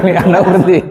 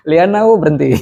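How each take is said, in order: First: Laughing. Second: Said in the usual way. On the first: Real, not acted. Student laughing at own guess in class. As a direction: answer it through a laugh.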